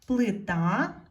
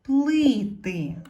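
First: Плита with the final А stressed and rising; stress on last syllable. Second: Плити with a high, loud first И; stress on first syllable. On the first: (наголос на А в кінці слова Плита) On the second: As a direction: punch the first И in плити, then fall. (сильний наголос на перше И у слові плити) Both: Shown as a demonstration. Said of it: "Не забуваємо ставити наголос".

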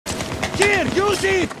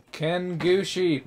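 First: High drawn-out scream of a name. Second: Said in the usual way. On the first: Retold or imitated. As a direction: shriek it out, very high and slow. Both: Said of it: "My guy just screamed that".

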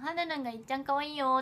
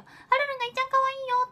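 First: Said in the usual way. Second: Mock Korean accent on 「はるるんがいっちゃん可愛いよ」, much higher, louder and fast. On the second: Shown as a demonstration. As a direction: rattle it off high in a playful fake Korean accent. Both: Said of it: "韓国カタカナで書かなきゃ".

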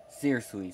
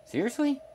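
First: Said in the usual way. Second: Soaring, incredulous high rise; stunned, can't believe the offer; incredulous seriously. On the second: Acted. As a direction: shoot the voice way up in disbelief. Incredulous question to the boss.

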